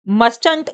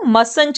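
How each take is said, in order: First: The t sound in the middle is pronounced. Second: The t sound in the middle is silent. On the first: The speaker calls it wrong. "आप इसको मस्टंट नहीं read करेंगे" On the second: The speaker calls it right. "आप इसको मसंट read करेंगे"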